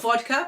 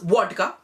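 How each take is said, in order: First: It is said in a standard English accent. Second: It is said in the family's heavy accent. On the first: "vodka is not vodka" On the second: "but it becomes vodka"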